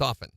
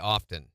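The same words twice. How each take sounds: First: The T in the middle is silent. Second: The T in the middle is pronounced.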